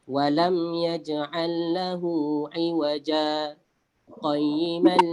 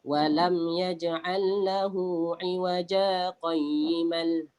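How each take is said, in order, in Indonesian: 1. Ada jeda singkat setelah iwaja. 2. Iwaja langsung tersambung ke qayyiman tanpa berhenti. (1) "ni contoh saya buat saktah" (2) "kalau kita sambung tanpa saktah ... yang tu salah"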